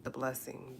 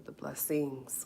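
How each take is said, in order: First: Said in the usual way. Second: "blessings" with the final S made clear; plural S stressed. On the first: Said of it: "the blessings with a S". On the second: Real, not acted. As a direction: land on the S ending of "blessings". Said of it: "with a S".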